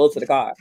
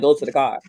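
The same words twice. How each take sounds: First: It is said in a Virginia accent. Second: The same.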